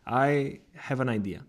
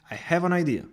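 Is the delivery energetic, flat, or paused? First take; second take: paused; energetic. First: A small pause comes partway through. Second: It is confident and full of energy. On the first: The speaker is thinking carefully and inviting attention. "the small pause before the second part of the sentence creates anticipation" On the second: Something important is about to happen. "delivered with confidence and energy"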